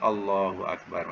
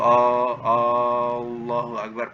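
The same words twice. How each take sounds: First: The first vowel is kept short. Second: The first vowel is drawn out long. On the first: It is a plain statement of praise. The speaker calls it right. "Jadi A tu pendek saja" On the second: It turns into a question: is there Allah? The speaker calls it wrong. "jangan sebut Allahu Akbar, panjangkan Allah"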